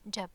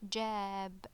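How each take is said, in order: First: The vowel is said short. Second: The vowel is said long. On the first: "it was just ja and ba, it would be jab" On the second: "with alif, it's a long ah, so it would be jab"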